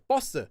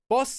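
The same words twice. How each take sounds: First: It starts with a tense consonant and higher pitch. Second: It starts with a plain consonant and lower pitch. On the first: "Boss is a double consonant when you pronounce it" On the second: "But you could say boss, and it's fine"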